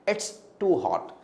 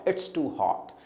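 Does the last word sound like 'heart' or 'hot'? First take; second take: hot; hot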